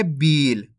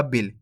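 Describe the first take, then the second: First: बील with the ee stretched long; long drawn-out ee. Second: बिल with a brief short i. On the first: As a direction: hold the ee in बील before closing on l. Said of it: "तो खींच के पढ़ेंगे". (बील को खींच के) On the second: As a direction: keep the vowel of बिल short and unstretched. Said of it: "छोटी ई की मात्रा का उच्चारण". (बिल में छोटी इ की मात्रा) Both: Shown as a demonstration.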